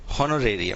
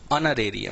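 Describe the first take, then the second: First: हॉनोरेरियम with a sounded h, ho-no-re-ri-yam; common mispronunciation. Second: ऑनरेरियम with a silent h, on-ne-re-ri-yam; correct pronunciation. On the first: Teacher showing students the common wrong reading. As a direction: mimic the wrong way, voicing the h. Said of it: "कई लोग इसको पढ़ते हैं". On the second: Teacher giving students the correct reading. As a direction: start ऑनरेरियम on the open o, no h. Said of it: "actual pronunciation, उच्चारण है". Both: Shown as a demonstration.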